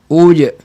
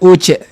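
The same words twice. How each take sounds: First: The j is crisp, with the breath held. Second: The j is soft, with air flowing through. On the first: The speaker calls it right. "tengah lidah" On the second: The speaker calls it wrong. "Jangan uj ... menjadikan sifat itu sifat hamas"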